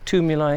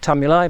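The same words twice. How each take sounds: First: The first syllable sounds like 'tomb'. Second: The first syllable does not sound like 'tomb'. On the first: "a lot of people say tumuli because I suppose it sounds like tombs" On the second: "I prefer tumuli"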